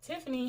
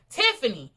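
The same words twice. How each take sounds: First: The name is called gently and softly. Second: The name is called sharply and forcefully. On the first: The caller is not irritated with the person. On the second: The caller is irritated with the person. "they called it very strongly"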